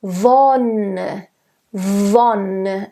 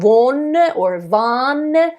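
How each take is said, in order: First: Wonne with an open o. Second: Wonne said with a closed o, then a; wrong vowels. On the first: Coach modelling the right Wonne. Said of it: "It's an open O". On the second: Coach showing wrong Wonne vowels. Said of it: "It's not". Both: Shown as a demonstration.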